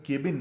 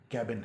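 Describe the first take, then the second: First: केबिन with an "ay" vowel; common mispronunciation. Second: कैबिन with an open a as in cat; correct pronunciation. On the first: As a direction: say केबिन as KAY-bin. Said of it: "दरअसल केबिन नहीं है". (केबिन, "के" वाली आवाज़ के साथ) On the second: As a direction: say कैबिन as KAB-in. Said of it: "लेकिन ये लफ्ज़ दरअसल". (कैबिन, "कै" खुला बोलते हुए) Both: Shown as a demonstration.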